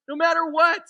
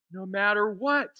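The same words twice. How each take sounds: First: High, loud, insistent assurance; emphatic repeat. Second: Said in the usual way. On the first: Real, not acted. Preacher assuring nothing can take it away, emphatic and loud. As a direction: drive it home with a raised voice.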